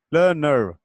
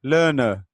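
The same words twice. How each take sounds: First: लर्नर said the American way with the final r sounded, lənər; American pronunciation. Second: लर्नर said the British way, no r at the end, lənə; British pronunciation. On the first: Teacher showing students the American way, final r sounded. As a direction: roll the end of लर्नर into a clear American r. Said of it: "और ये American है". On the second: Teacher showing students the British way, no final r. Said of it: "ये इसकी British pronunciation है". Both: Shown as a demonstration.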